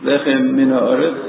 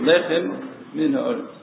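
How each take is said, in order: First: The two m sounds run together as one. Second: The two m sounds are pronounced separately. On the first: The speaker calls it wrong. "you shouldn't say" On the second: The speaker calls it right. "you should say ... Two mems over here"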